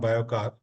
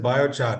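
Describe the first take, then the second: First: The middle consonant is a 'k' sound. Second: The middle consonant is a 'ch' sound. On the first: The speaker calls it wrong. "not biocar" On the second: The speaker calls it right. "it is biochar"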